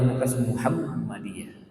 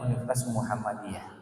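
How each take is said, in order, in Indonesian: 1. Bunyi m dalam Muhammadiyah ditahan, jadi ganda. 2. Bunyi m dalam Muhammadiyah pendek, tunggal. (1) "itu dirasa aneh" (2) "orang kita nggak terbiasa itu menyebutnya"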